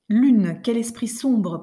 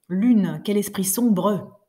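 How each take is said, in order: First: The final mute e's are dropped. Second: The final mute e's are pronounced. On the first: The speaker calls it right. "ça suit la prononciation que nous aurions, nous, en temps normal" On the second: The speaker calls it wrong. "c'est quand même abominable"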